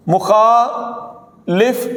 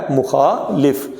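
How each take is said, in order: First: مخالف dragged out with the common wrong vowel; teacher modelling the mistaken مخالف; very slow wrong pronunciation. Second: مخالف said lower with the correct vowel; teacher giving students the correct مخالف; corrected pronunciation. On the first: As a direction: stretch مخالف the wrong way on purpose. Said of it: "یہ مخالف نہیں ہے". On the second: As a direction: give the proper مخالف calmly. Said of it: "یہ کیا ہے". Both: Shown as a demonstration.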